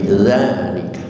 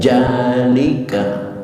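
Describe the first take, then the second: First: The word begins with a z sound. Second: The word begins with a j sound. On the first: The speaker calls it right. "tapi zalika" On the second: The speaker calls it wrong. "Jangan dibaca jalika"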